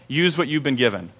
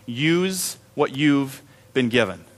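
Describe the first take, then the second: First: Said in the usual way. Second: Slow, soft, weighty delivery; slow emphatic line. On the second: Real, not acted. Pastor driving home the sermon's theme, slow and soft. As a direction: lay each word down slowly.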